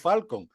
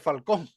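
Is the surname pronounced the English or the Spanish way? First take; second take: English; Spanish. First: The surname is pronounced with an English accent. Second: The surname is pronounced with a Spanish accent. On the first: "la pronunciación del inglés es Joe Falcon" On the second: "en verdad sería algo así como José Falcón"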